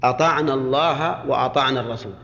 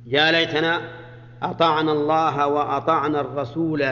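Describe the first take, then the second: First: أطعنا said without the long alif, ataʕna lːah; correct reading demo. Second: الرسول held out with a long final alif, resulaa; reading with final alif. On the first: Teacher to students: أطعنا read with no alif. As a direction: read أطعنا الله joined, dropping the alif. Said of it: "فنقول". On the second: Teacher to students: الرسول read with its alif. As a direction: stretch the alif at the end of الرسول. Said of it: "الرسول بالألف". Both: Shown as a demonstration.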